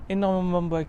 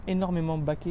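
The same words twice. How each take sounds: First: Énormément ba- breaks off mid-word on ba-; stumbled slip. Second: Said in the usual way. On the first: Real, not acted. Presenter stumbles describing the seats, cut-off slip. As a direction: trip over the word and stop. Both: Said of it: "excusez-moi".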